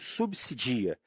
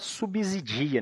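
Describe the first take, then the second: First: The second s sounds like an s. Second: The second s sounds like a z. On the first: The speaker calls it right. "ele tem som de S mesmo" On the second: The speaker calls it wrong. "Tem gente que fala subsidia"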